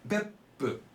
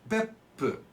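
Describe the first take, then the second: No difference in how they are said.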